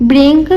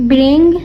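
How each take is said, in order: Both takes have the same delivery.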